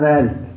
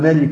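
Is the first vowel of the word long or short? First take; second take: long; short. First: The first vowel is long. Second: The first vowel is short. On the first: "غضبت أننا قلناها مالك" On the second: "نلغي الألف دي"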